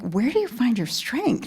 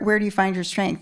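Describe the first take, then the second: First: It is asked in an amazed, admiring tone. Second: It is asked as a plain, neutral question. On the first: The asker marvels at how great the person is. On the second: The asker simply wants to know the source.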